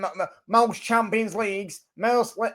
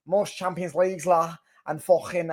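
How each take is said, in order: First: Higher-pitched mock accent slipping into Manc; botched Manc accent. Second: Retried Scouse fan impression; mock Scouse accent. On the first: Liverpool fan boasting of trophies, accent slipping into Manc. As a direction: aim for Scouse but land on a bad Manc accent. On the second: Liverpool fan boasting of trophies, in a corrected mock Scouse accent. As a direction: put on a bad Scouse accent, ending on "la". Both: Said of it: "that's a fucking Manc accent".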